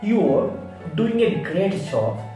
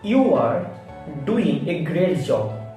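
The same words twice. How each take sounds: First: 'You are' is contracted to one syllable. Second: 'You are' is said as two full words. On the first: The speaker calls it right. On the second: The speaker calls it wrong.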